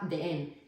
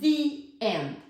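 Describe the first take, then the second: First: The word 'the' has a short 'uh' vowel. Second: The word 'the' has a long 'ee' vowel. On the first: The speaker calls it wrong. "tú no digas nunca the end" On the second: The speaker calls it right. "tienes que decir the end, porque end empieza por vocal"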